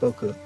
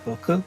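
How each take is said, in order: First: The pitch stays flat throughout the word. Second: The pitch goes up at the word's end. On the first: The speaker sounds more mature. "there's like a fourth one, which is just a flat" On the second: The speaker sounds more childlike. "where you kind of go up at the end"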